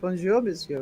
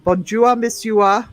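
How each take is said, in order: First: It is said with a standard French accent. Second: It is said with a thick Northumbrian accent.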